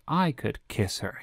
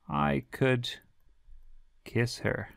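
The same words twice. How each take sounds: First: It is said in an excited, surprised tone. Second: It is said in a calm, neutral tone. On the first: The speaker is thrilled by what happened. "it might even express something like surprise or excitement" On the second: It is merely possible to do it. "tends to express more the possibility of something"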